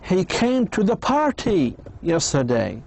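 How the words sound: The word party is stressed. It was a party, not a meeting. "So it was a party, not a meeting or something else"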